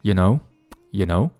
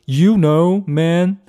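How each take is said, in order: First: YOU weakened to a quick "ya" in "you know"; "you know" with YOU reduced to ya. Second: YOU pronounced fully and high in "you know"; "you know, man" with an unreduced, raised YOU; over-full you know. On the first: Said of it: "这样的感觉". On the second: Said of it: "不是这样的啊". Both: Shown as a demonstration.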